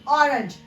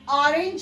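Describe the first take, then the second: First: The first vowel is a short O sound. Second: The first vowel is a long O sound. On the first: The speaker calls it right. "ओ का short sound pronounce करेंगे" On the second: The speaker calls it wrong. "इसको ऑरेंज भी नहीं"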